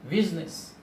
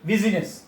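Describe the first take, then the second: First: The middle vowel after the s is dropped. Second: The middle vowel after the s is sounded. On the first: The speaker calls it right. "I is not pronounced. we say business" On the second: The speaker calls it wrong. "We don't say business"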